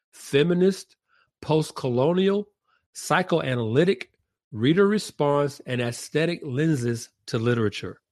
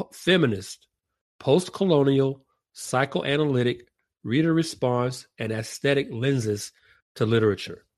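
Both takes have the same delivery.

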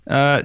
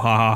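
First: It begins with an English J sound. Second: It begins with an H sound. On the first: "but it's funnier this way" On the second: "if I go"

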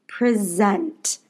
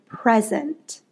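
First: The stress falls on the second syllable. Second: The stress falls on the first syllable. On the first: It is a verb: to introduce or give. "Present means to give attention to or to introduce something" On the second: It is a noun: a gift. "the word present is like a gift that you give to someone"

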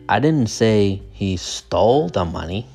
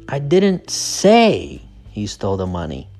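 First: The word 'stole' is stressed. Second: The word 'say' is stressed. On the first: He may have just borrowed it. "The stress is on stole" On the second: The speaker only suggested it. "So the stress is on say"

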